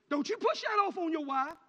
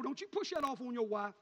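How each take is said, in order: First: Louder and higher, pushed harder; louder repeat. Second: Said in the usual way. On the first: Acted. Preacher warning fathers a second time, louder and higher. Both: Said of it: "repeated louder".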